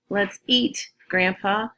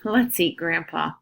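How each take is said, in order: First: There is a pause before the last word. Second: There is no pause before the last word. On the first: The speaker calls it right. "So don't forget" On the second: The speaker calls it wrong.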